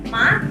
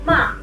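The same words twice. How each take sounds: First: The pitch rises from low to high. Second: The pitch stays high and level. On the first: "nadanya dari rendah ke tinggi, seperti kita sedang bertanya" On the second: "suaranya tinggi dan datar"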